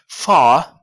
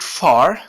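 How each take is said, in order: First: It is said in a British English accent. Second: It is said in a non-British accent.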